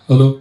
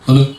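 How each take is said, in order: First: The voice sounds dry, with no echo. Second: The voice has an added echo effect. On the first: "இப்போ நார்மலாக check பண்ணுறேன்" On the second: "இப்போ echo check பண்ணுறேன் பாருங்கள்"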